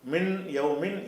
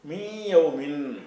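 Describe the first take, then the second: First: The n is pronounced as a clear n. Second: The n merges into a nasal sound. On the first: The speaker calls it wrong. "இன்னு என்று சொல்லாமல்" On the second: The speaker calls it right. "மூக்குனால சொல்லணும்"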